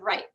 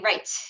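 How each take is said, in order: First: The final T is not released. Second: The final T is clearly released.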